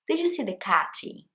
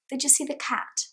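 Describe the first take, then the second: First: An extra vowel is added after the t. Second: The last word ends cleanly on the t. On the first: The speaker calls it wrong. "something that I hear Brazilians doing a lot" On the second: The speaker calls it right. "Cat, that's it"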